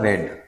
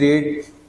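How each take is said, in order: First: The vowel is short, like 'red'. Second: The vowel is long, like 'reed'. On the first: The speaker calls it right. "उच्चारण इसका क्या होगा, रेड" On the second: The speaker calls it wrong. "Sorry ये sentence simple past का है"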